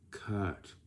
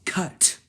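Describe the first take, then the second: First: Lazy flat cut. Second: Sharp, high, loud "cut."; energetic cut. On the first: Director muttering a lazy "cut.". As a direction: mumble "cut." with no effort at all. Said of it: "you sound like this". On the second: Director calling a firm, loud "cut.". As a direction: bark "cut." like you mean it. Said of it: "You sound like this". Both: Shown as a demonstration.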